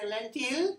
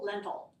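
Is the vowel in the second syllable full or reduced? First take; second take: full; reduced. First: The second syllable has a full, clear vowel. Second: The second syllable has a reduced schwa vowel. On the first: The speaker calls it wrong. "you wanted to say lentil?" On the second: The speaker calls it right. "But we just say o"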